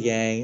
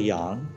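First: The name is said with an English pronunciation. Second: The name is said with a Mandarin pronunciation. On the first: This is the familiar everyday form. "I'm used to Yang" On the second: This is the technically correct original form. "for the listeners who are Mandarin speakers, ... it's technically Yang"

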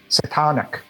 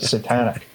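First: The word is said with a Brooklyn accent. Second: The word is said with a standard accent. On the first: This imitates how the mother says it. "with her Brooklyn accent, would call it that satanic music. And she still says it to this day" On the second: This is the usual way to say it. "instead of"

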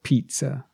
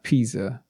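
First: The middle consonant is a TS sound. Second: The middle consonant is a plain Z sound. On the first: The speaker calls it right. "but pizza" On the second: The speaker calls it wrong. "Not pizza"

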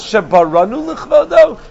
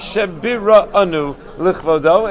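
First: The verb is pronounced as baranu. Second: The verb is pronounced as biranu. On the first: We created for His honor. The speaker calls it wrong. "that would seem to be a significant error" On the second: He created us for His honor. The speaker calls it right. "It should be Shebiranu l'chvodo"

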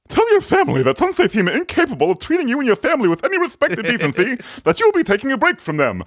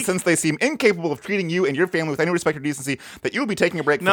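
First: It is read in a put-on character voice. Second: It is read in the reader's normal voice.

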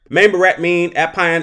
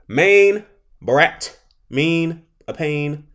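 First: The phrase is spoken quickly, as one run. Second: The phrase is spoken slowly, in separate chunks.

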